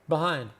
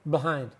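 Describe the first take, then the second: First: The word is said loosely with little mouth movement. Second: The word is said loosely with little mouth movement.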